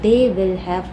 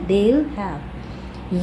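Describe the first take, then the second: First: Each word is said fully and separately. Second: The words are run together in a contraction.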